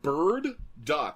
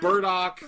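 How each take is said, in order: First: It is said as two words, bird and dock. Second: It is said to rhyme with Murdock. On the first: The speaker calls it right. "but Bird Duck, like a dock for a bird to sit on" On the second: The speaker calls it wrong. "not Burdock like Murdock"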